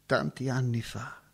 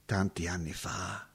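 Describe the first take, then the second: First: Said in the usual way. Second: Hushed whisper, lost in memory. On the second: Acted. Remembering long ago to the visitor, whispered. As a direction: breathe it out like a secret.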